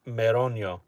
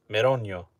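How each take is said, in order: Both takes have the same delivery.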